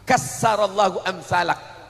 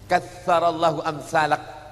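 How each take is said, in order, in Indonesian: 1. Kata pertama punya bunyi s di tengah. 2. Kata pertama punya bunyi th di tengah. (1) "semoga Allah menghancurkan orang seperti kamu" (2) "semoga Allah memperbanyak orang seperti kamu"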